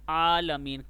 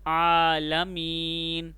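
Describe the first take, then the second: First: आलमीन with a short, unstretched आ; clipped wrong way. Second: आलमीन with the opening आ drawn out long and slow; stretched vowel. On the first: Teacher showing students the wrong short आलमीन. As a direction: rush आलमीन, first vowel kept short. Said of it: "आलमीन नहीं पढ़ना". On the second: Teacher showing students the correct long आलमीन. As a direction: pull the आ of आलमीन out, unhurried. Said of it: "आइन को खींचना है थोड़ा सा". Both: Shown as a demonstration.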